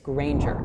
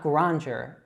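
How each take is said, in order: First: The first vowel sounds like in 'rain'. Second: The first vowel is not like in 'rain'. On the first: The speaker calls it right. "say that A as if it were like in the word rain" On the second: The speaker calls it wrong. "So it's not Granger"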